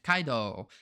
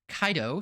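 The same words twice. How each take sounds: First: The final vowel is long. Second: The final vowel is short.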